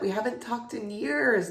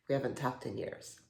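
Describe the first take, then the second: First: Higher, lively exclamation; eager catching-up. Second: Lower, much softer; subdued admission. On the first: Catching up with an old school friend, eager. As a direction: say it brightly, in an excited rush of reunion. Excited catching up, then awkward restatement. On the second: Admitting to an old friend how long it's been, subdued. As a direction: let it sink to a quiet, awkward admission. Same words, awkwardly trailing down. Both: Acted.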